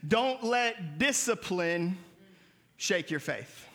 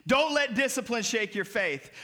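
First: Measured, fading emphasis; slow emphatic. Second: Said in the usual way. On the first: Shown as a demonstration. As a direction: dictate it slowly for note-taking. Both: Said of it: "I want you to write down".

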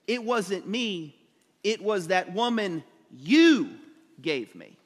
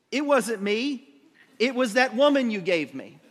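First: Slow build to a drawn-out, punched YOU, then drop away; stress on YOU. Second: Mock-defensive denial, raised and loud; hammed-up blame-shifting; Adam. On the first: Shown as a demonstration. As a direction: lean hard on "you", pausing after it. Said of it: "there's an emphasis in that phrase". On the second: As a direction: pass the blame quickly in a higher, louder voice. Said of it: "holy man, says".

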